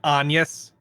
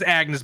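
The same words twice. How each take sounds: First: The name is said with a French pronunciation. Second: The name is said with an English pronunciation. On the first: "but they pronounce it Agnes" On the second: "her name is Agnes"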